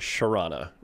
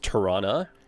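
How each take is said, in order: First: It starts with a sh sound. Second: It starts with a t sound, ending in a. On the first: It is the form heard closest to the core. "the closer you are to the core, the more you'll get the sh at the start" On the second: It is the in-between local form. "you might get the A at the end instead of Toronto"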